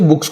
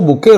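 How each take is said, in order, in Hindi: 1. शब्द का अंत s ध्वनि से होता है। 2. शब्द का अंत ay ध्वनि से होता है।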